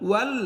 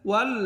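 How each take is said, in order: Both takes have the same delivery.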